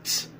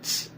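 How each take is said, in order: No difference in how they are said.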